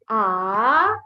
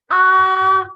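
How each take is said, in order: First: The pitch rises from low to high. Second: The pitch stays level and long. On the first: "Your pitch goes up" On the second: "It is a flat line on your syllable. All you have to do is simply stretch the syllable"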